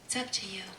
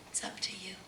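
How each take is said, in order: First: Said in the usual way. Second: Soft whisper to the listener. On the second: Real, not acted. Preacher urging listeners, soft whisper. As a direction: breathe it to them.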